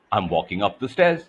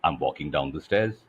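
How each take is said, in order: First: Rising up the stairs. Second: Lower, pitch stepping down; falling down the stairs. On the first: Coach showing melody, pitch climbing. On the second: Coach showing melody, pitch dropping low. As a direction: let the voice walk downward. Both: Shown as a demonstration. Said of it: "for example, I could say".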